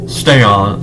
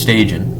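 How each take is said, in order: First: The name sounds like the words 'stay on'. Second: The name ends with a 'jan' sound. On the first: The speaker calls it wrong. "EA games always pronounce this guy's name wrong. They would say "stay on,"" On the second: The speaker calls it right. "No, it's Stajan"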